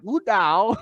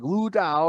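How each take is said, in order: First: Lu Dao in a higher imitated Chinese accent; imitated Chinese pronunciation. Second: Lu Dao as an unsure English speaker's attempt; a milder, less pitched-up try at Chinese Lu Dao; attempted Chinese pronunciation. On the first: Imitating a Chinese podcast guy saying Lu Dao, Chinese accent. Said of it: "this Chinese guy is, like, saying it". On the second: Shown as a demonstration. Retrying the podcaster's Lu Dao, doubtful Chinese pronunciation. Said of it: "I feel like I'm saying it wrong".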